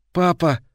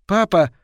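First: Put-on higher call from a weary boy; tired, hoarse child. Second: Put-on high, loud child's call for father. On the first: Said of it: "Его детский усталый голос стал хриплым". (усталый, охрипший детский зов) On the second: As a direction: call out for dad like a boy. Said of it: "позвал мальчик". (мальчик громко зовёт отца) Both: A narrator's reading.

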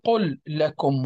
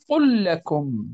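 First: "قل لكم" with two distinct lams; slow, lam of "قل" stopped before "لكم"; wrong separated reading. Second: "قل لكم" with one doubled lam, qullakum; correct merged reading. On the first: Teacher showing students the mistake: "قل لكم" pronounced unmerged. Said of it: "لا نقول". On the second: Teacher modelling the right way: "قل لكم" with the lams merged. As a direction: glide "قل" straight into "لكم" with a long lam. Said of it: "نقول". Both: Shown as a demonstration.

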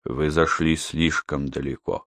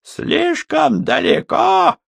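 First: Low, soft grave rebuke; quiet. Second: High, slow furious echo; mock it back with rage; sinister shout. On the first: Acted. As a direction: say it low and heavy. Yon calm rebuke. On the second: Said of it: "со зловещей ухмылкой".

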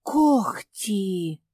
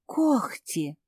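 First: Breathed out in realization; exhaled. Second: Word with a sob in it; crying out. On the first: Mafi realizing the truth, breathed out. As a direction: let the word out on a breath. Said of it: "выдохнула Мафи". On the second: Mafi remembering the itch, word broken by a sob. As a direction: let the voice break on it. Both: A narrator's reading.

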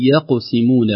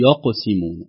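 First: يقسمون with a thin ya before a heavy qaf; correct light ya. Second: يقسمون with the ya darkened by the qaf; wrong heavy ya. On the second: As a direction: thicken the ya in يقسمون as a mistake. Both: Shown as a demonstration. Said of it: "وليست".

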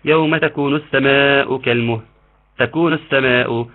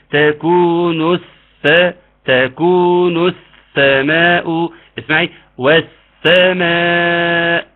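First: السماء with the doubled sin said too short; wrong recitation. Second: السماء with a long held doubled s; doubled sin. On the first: Retold or imitated. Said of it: "فكان بيقولها ايه كده؟". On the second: Shown as a demonstration. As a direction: recite السماء slowly, holding the ss. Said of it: "فنقول ايه؟".

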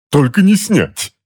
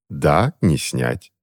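First: Much higher, slow, loud outcry stressing не; much higher slow desperate cry; desperate protest. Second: Slow cold confirmation to her husband; cool agreement. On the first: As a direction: cry out against it. Husband protesting. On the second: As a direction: agree flatly to needle him. Wife answering coolly. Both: A narrator's reading.

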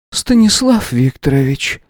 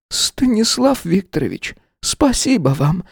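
First: Weary. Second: High, slow, quavering thanks; grateful, close to tears; trembling voice. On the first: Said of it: "устало произнесла женщина". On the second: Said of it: "дрогнувшим голосом сказала". (дрогнувшим голосом) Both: A narrator's reading.

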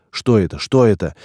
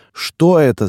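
First: Mild thin-voiced cry; understated yelp of disbelief; thin-voiced yell. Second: High, loud startled squeal. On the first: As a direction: repeat it in a slightly raised, alarmed voice. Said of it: "орал тонким голосом полный". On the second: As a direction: squeal the question in alarm. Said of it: "завизжал полный". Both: A narrator's reading.

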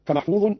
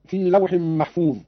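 First: "فمحفوظ" ending in -un; nominative ending. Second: Said in the usual way. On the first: Shown as a demonstration. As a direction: sound the damma tanween on "فمحفوظ". ("فمحفوظ" بتنوين الضم) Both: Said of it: "قرأ قالون بالرفع".

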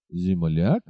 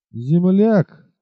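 First: Земляк asked back, lower and softer, rising in disbelief; indignant echo of the word; scornful exclamation. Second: Земляк repeated coolly, a touch higher and louder, with scorn; composed, sneering repeat; calm mocking tone. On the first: Acted. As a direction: echo Земляк as an insulted question. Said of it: "воскликнул всадник". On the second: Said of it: "повторил он спокойным насмешливым тоном".

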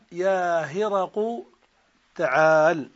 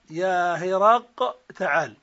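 First: يا هرق with قاف in damma, heraqu; هرق in the non-waiting form; second dialect. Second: يا هرق with final قاف kept as in هرقل; هرق in the waiting form; first dialect. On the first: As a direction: say هرق ending in u. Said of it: "وعلى الأخرى". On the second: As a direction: say هرق keeping its original vowel. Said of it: "على الأولى". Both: Shown as a demonstration.

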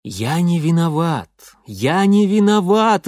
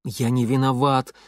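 First: Loud, high wail. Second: Crying. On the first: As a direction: wail it out in protest. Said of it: "выл я". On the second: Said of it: "плакал я". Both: A narrator's reading.

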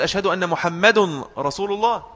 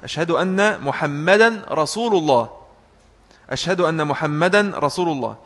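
First: "محمد" as Muhammadun, un ending; grammatical error. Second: "محمدا" as Muhammadan, "رسول" as rasulu; an ending on محمدا, u ending on رسول; correct reading. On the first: Retold or imitated. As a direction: put a wrong un on محمد. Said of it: "خطأ لغوي". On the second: Shown as a demonstration. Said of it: "بقراءة صحيحة".

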